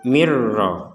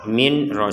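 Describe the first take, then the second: First: The n merges into a doubled r. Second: The n is pronounced clearly before the r. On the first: The speaker calls it right. "sehingga dibacanya mir rabbik" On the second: The speaker calls it wrong. "Jadi jangan dibaca min ro"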